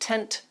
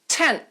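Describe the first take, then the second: First: The final T is released with a puff. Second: The final T is held, not released. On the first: "It's not released as if I had said tent" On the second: "My tongue stays on the roof of my mouth"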